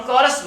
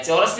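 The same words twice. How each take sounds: First: कोरस said with a hard k at the start; correct k sound. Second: चोरस said with a ch at the start, the mistake; wrong ch sound. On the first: Teacher tells students the right way is कोरस with k. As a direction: say कोरस with k, never ch. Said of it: "चोरस नहीं बोलते". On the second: Teacher warns students not to say चोरस with ch. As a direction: show the error: चोरस with ch. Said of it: "नहीं बोलते". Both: Shown as a demonstration.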